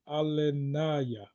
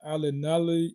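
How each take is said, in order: First: Alanaya drawn out slowly, syllable by syllable; careful retry of the name. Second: Alanali said quickly as a first try at the name; a quick first guess at Alanali. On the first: Retrying a viewer's name, slowly sounding out Alanaya. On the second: Stumbling over a viewer's name, trying Alanali. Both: Real, not acted. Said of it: "I think I said it wrong".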